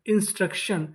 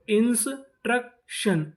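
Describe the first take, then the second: First: Said in the usual way. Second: instruction slow and higher, as इंस, truck, शन; syllable by syllable. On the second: Shown as a demonstration. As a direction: sound out instruction in three parts. Teacher sounding out new word.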